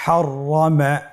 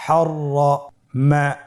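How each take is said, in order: First: Said in the usual way. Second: হররমা said slowly with the doubled র held; slow careful reading. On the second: Shown as a demonstration. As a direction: draw out হররমা, leaning on the double r. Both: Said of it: "আমার সাথে বলুন".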